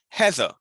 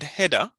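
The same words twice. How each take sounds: First: The final syllable is a weak schwa. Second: The final syllable has a full, strong vowel. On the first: The speaker calls it right. "E R is pronounced like ah ... schwa" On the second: The speaker calls it wrong. "it's not Heather"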